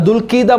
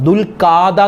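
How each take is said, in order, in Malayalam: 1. 'kh'ക്ക് ശേഷം 'i' സ്വരമാണ് വരുന്നത്. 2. 'kh'ക്ക് ശേഷം നീണ്ട 'aa' സ്വരമാണ് വരുന്നത്. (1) "അങ്ങനെ പല രൂപത്തിലാണ് ആളുകൾ പറയാറുള്ളത്" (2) "പല ആളുകളും ദുൽഖാദ മാസം, ദുൽഖാദ എന്ന് പറയും"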